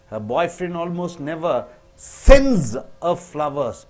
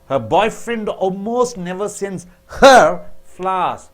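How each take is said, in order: First: The word sends is stressed. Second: The word her is stressed. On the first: He does not send flowers but plants them in her garden. "When you stress on sends" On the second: He sends flowers to others but not to her. "When you stress on her"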